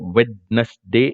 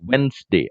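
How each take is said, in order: First: The word is said with a d sound. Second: The word is said without a d sound. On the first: The speaker calls it wrong. "വെഡ്നസ്ഡേ എന്ന് പറയരുത്" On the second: The speaker calls it right. "So it's വെൻസ്ഡേ"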